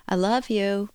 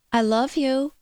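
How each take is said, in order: First: Sung, lilting up and down; sung, sing-song. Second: Pleading, a bit higher and louder; begging. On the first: Sung, radio host mimics a sing-song love you. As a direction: sing it like a nursery tune. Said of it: "with a sing-song type approach". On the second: Host imitates a needy partner begging for love. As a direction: plead for reassurance. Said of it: "or they say it beggingly". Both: Retold or imitated.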